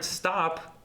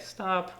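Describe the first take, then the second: First: "stop" held out long on one syllable; long single-syllable stop. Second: Imitating a spectator. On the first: Shown as a demonstration. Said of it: "one syll-, syllable, but it's about this long". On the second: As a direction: play the spectator calling "stop". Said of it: "That's how they sound".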